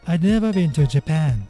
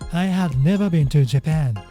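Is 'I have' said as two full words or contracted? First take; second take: contracted; full. First: I and have merge into one short syllable. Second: I and have are said as two full words. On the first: "example sentences using contraction" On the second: "the original sentence"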